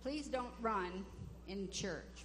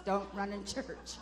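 First: Said in the usual way. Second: Slow, mock-stern rule for kids; scolding parent. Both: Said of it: "We teach our kids".

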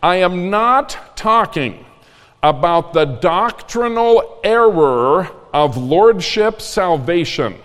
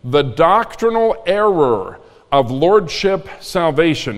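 First: Each word of "the doctrinal error of lordship salvation" laid down slowly and firmly; slow, deliberate emphasis. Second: "doctrinal" leaned on, the whole phrase said slowly and evenly; slow, deliberate repeat. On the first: Pastor warning the congregation, slow and deliberate. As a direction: spell out "doctrinal error" slowly so nobody misses it. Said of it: "listen carefully".

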